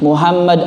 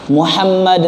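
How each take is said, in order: First: The h is a plain, light breathy sound. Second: The h is a tense sound from the throat. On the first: It means one who causes destruction. The speaker calls it wrong. "perubahan huruf ha menjadi ha" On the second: It means one who is praised. The speaker calls it right. "Muhammad dengan ha yang keluar dari tengah tenggorokan"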